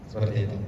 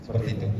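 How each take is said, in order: The two takes are said the same way.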